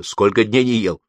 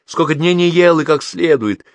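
First: Said in the usual way. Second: High, loud, pressing question; insistent questioning. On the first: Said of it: "проговорила тётя Груша". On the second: A narrator's reading. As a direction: demand an answer, pitched up and forceful. Aunt insistently repeats her question. (настойчивый громкий расспрос)

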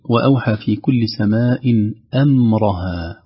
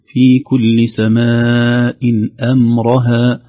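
First: أمرها with thick, emphatic hamza and mim; wrong heavy emphasis. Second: أمرها said thin and light, only the ra made full; slow, loud, careful reading: في كل سماء أمرها, all thin but the ra; correct light reading. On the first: Teacher models the wrong heavy reading of أمرها. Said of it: "أمرها هكذا بتفخيم الهمزة وتفخيم الميم". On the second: Teacher recites the correct light أمرها slowly. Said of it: "فنقول". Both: Shown as a demonstration.

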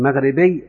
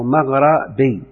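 First: مغربي said maghribi, with i after the gh; مغربي as "magh-ri-bi", ra with kasra. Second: مغربي said maghrabi, with a after the gh; مغربي as "magh-ra-bi", ra with fatha. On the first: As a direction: say مغربي with a short i on the ر. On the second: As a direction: open the ر of مغربي to a short a. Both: Shown as a demonstration. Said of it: "جاز كسرها وفتحها".

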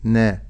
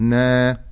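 First: "نا" as a brief, single-beat na; short fatha. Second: "نا" stretched into a long naa; overlong fatha. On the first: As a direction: keep the vowel of "نا" short. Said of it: "ولكن أقول". ("نا" بفتحة قصيرة) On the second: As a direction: hold the vowel of "نا" too long. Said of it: "ولا أزيد على مقدار الفتح". ("نا" بفتحة زائدة) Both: Shown as a demonstration.

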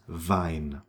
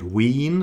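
First: Wein said "vine", dropping low; softer, falling Wein with an eye vowel. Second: Wien said "veen"; long ee. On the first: Teacher gives the right word, German EI as eye. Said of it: "That's not Wien". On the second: Teacher contrasts it with Wein, long ee vowel. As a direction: Wien with long ee, lifted at the end. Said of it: "That's not". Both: Shown as a demonstration.

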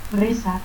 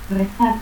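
First: Reza for rezar, final R cut to a stop; altered final R. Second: Said in the usual way. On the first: Shown as a demonstration. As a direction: say "rezat". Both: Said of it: "confusión de R y T al final".

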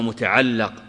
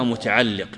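First: "متعلق" with "a" after the doubled l; final-syllable "a" vowel. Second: "متعلق" with "i" after the doubled l; final-syllable "i" vowel. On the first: Teacher giving the other name for it, "متعلق" said muta'allaq. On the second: Teacher naming what grammarians call it, "متعلق" said muta'alliq. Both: Shown as a demonstration. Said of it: "أو يسمونها متعلق".

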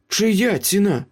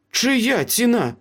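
First: High-pitched, pressing question; pointed question. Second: High, slow, deliberate demand; insistent repeated question. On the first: Meryl questions Ace about the price, pointed. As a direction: demand an answer, pitched well up. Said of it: "запитала Меріл". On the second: Meryl presses the silent Ace about the price, insistent. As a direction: press each word slowly for an answer. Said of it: "повторила Меріл". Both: A narrator's reading.

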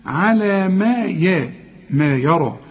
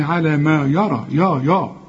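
First: يرى with thin "ya", then heavy "ro"; light ya. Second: يرى starting with a dark "yaw"; wrong heavy ya. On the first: Shown as a demonstration. Teacher corrects the student, light ya. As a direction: keep ما and يا light, thicken only the را of يرى. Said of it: "كل ياء في القرآن ما تفصلش فيها". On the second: Retold or imitated. Teacher mimics student's mistake, wrong heavy ya. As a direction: thicken the يا of يرى and repeat it. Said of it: "أصلك بتقول لي".

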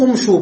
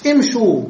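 First: امشوا begun with u, "umshu"; wrong damma on the hamza. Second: امشوا begun with i, "imshu"; kasra on the hamza. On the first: Teacher ruling out a form, امشوا begun with u. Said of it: "بالضم". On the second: Teacher giving the correct plural command, امشوا begun with i. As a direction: say امشوا as "imshu", short i first. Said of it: "فإنه يبتدئ بالكسر". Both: Shown as a demonstration.

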